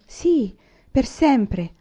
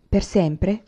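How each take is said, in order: First: Per sempre with a falling, settled tune; Laura answers her sister, per sempre falling firmly. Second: Per sempre asked with a rising tune; questioning rise. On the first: Laura answering Carrie, a firm falling statement. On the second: Carrie doubting her sister, lightly rising question. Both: A narrator's reading. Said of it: "disse Laura".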